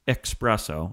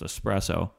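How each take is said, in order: First: The word starts with an 'ex' sound. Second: The word starts with an 'es' sound. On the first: The speaker calls it wrong. "There's no X in espresso" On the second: The speaker calls it right. "So it's espresso"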